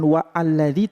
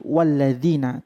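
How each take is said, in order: First: The 'a' after 'wa' is sounded separately. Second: The 'wa' runs straight into 'lladzina'. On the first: The speaker calls it wrong. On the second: The speaker calls it right. "alifnya tidak dibaca a"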